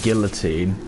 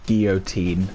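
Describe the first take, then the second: First: It is pronounced in an English-sounding way. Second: It is pronounced in a French-sounding way. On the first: This is how the speaker's own country says it. "we would say guillotine" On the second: This is how Americans say it. "in America there's words that you say French"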